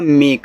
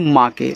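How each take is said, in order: First: It is said as one syllable, 'mek'. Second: It is said as two syllables, 'maa ke'. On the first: The speaker calls it right. "ये माँ के नहीं, ये आपका मेक है" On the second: The speaker calls it wrong. "जिनको तरीका नहीं पता है पढ़ने का वो इनको पढ़ेंगे माँ के"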